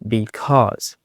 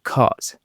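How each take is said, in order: First: The word is said in full, both syllables. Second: The word is shortened, dropping its first syllable.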